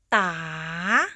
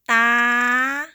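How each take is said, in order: First: The pitch rises across the syllable. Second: The pitch stays high. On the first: "Rising tone" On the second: "High tone"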